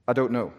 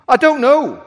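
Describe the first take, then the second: First: Said in the usual way. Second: "I don't know" yelled much higher and louder; shouted reply. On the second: Acted. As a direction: throw "I don't know" back at full volume. Thief repeats answer to angel.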